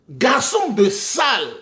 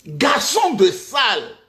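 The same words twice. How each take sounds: The two takes are said the same way.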